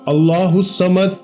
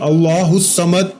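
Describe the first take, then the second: The two takes are said the same way.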